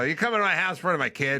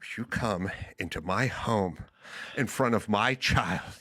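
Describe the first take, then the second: First: It is said in a plain, casual voice. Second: It is said in a breathy, fake-angry voice.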